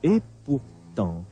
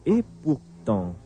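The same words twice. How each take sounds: The two takes are said the same way.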